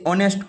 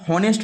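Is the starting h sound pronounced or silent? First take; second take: silent; pronounced. First: The word starts with a vowel, no h. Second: The word starts with an h sound. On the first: The speaker calls it right. "पढ़ क्या रहे हैं ओ से" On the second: The speaker calls it wrong. "हॉनेस्ट नहीं पढ़ते हैं"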